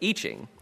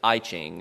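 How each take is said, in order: First: The first word does not sound like letter I. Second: The first word sounds like the letter I. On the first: The speaker calls it right. "instead of I Ching" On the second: The speaker calls it wrong. "the uninitiated will pronounce it I Ching"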